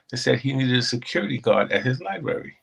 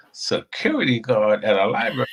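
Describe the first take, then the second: First: Said in the usual way. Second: Disbelief rising on "security"; incredulous question. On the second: Retold or imitated. Retelling a job offer, incredulous echo. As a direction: repeat it back like it can't be true.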